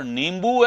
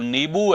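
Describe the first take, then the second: First: नींबू with a full m, as निम्बू; common mispronunciation. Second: नींबू as plain नीबू, no m; long नी, then बू, without nasal in नींबू; correct pronunciation. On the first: Teacher shows the popular error, नींबू said as निम्बू. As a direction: put a nasal m before बू in नींबू. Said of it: "नींबू ऐसे बोलते हैं". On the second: Teacher corrects the error, नींबू said as नीबू. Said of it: "बिल्कुल नींबू है". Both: Shown as a demonstration.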